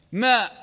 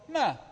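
First: Loud "ماء" with a closing glottal stop; final hamza pronounced. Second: "ماء" said as open "maa", no glottal stop; final hamza dropped. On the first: Teacher giving the full form as example, final hamza pronounced. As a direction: end "ماء" on a clear hamza. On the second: Teacher answering how Arabs said it, final hamza dropped. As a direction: let the vowel of "ماء" fall away, hamza omitted. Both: Shown as a demonstration. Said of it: "إذا جاءت الهمزة متطرفة تحذف".

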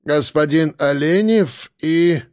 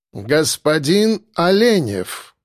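First: Slow, unsure announcing; hesitant announcement. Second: Slow, stately butler's announcement; formal announcement. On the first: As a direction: trail off uncertainly. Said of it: "нерешительно продолжил". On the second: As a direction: announce the guest grandly. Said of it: "объявил Арнольд". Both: A narrator's reading.

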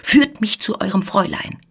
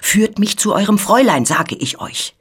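First: Wild demand, pitched higher. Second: High, loud, wild demand, falling off; wilder cry. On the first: Intruder demands to see the young lady, wild voice. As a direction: demand it wildly. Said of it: "mit wilder Stimme". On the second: Intruder insists on seeing the young lady, wild cry. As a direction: demand it fiercely, raising the voice. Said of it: "rief noch wilder als zuvor". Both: A narrator's reading.

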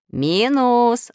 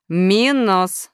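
First: High, loud call of the name; shouted. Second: Name drawn out, high and firm; stern. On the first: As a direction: call out sharply to summon him. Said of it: "закричал Нуль". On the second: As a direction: pull him up sternly by name. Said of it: "строго сказал Плюс". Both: A narrator's reading.

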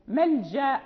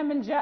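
First: ملجأ with the final aa held only briefly; short two-count ending. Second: ملجأ with the final aa stretched out long; wrongly prolonged ending. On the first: Teacher showing the correct stop, short final vowel. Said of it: "فنقف بحركتين فقط". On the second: Teacher showing what not to say when stopping, over-lengthened vowel. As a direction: overdo the long aa at the end of ملجأ. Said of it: "لا نقول إذا وقفنا ملجأ". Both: Shown as a demonstration.

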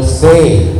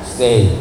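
First: Said in the usual way. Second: Lower, softer repeat of Stay; a soft, lower second Stay; soft echoed plea. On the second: Acted.

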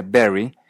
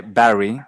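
First: "Barry" said like berry; Canadian merger. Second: "Barry" with an open a, as in "cat"; unmerged vowel. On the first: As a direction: turn the a of "Barry" into short e. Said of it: "se dice Barry". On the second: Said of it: "El nombre Barry". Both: Shown as a demonstration.

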